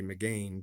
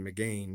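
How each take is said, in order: First: It is pronounced the way the spelling suggests. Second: It is pronounced the way the spelling suggests.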